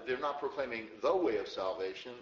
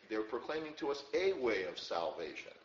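First: "the" picked out as a full, emphatic word; stress on THE. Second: "a" said as a full "ay" and set apart; stress on A. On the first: Teacher correcting the English reading, heavy stress on "the". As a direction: lean hard on "the" before "way of salvation". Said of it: "the word "the" is actually not there". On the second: Teacher giving the literal Greek to listeners, stress on "a". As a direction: lean on "a", pronounced "ay", before "way of salvation". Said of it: "Literally in the Greek". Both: Shown as a demonstration.

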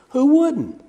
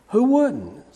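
First: High, amused "Who wouldn't?"; amused exclamation. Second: Quieter, drier repeat of "Who wouldn't?"; softer echo. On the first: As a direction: toss off "Who wouldn't?" with a lift. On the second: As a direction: let "Who wouldn't?" fall away softly. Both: Real, not acted. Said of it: "repeats it softer".

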